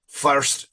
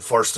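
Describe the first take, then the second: First: FIRST drawn out with an Irish lilt; Irish accent on FIRST. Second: FIRST with a Scottish-sounding vowel; Scottish accent on FIRST. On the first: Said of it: "is Irish". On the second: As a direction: say FIRST as a Scot would. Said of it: "is Scottish". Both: Shown as a demonstration.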